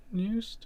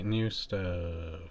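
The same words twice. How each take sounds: First: New stuff. sung up high with a rising end; jingle-like high rise. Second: Said in the usual way. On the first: Acted. Host announcing the segment title in a high, rising jingle voice.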